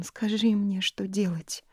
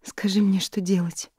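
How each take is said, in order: First: Said in the usual way. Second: Pleading. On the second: A narrator's reading. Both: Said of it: "взмолилась Нори".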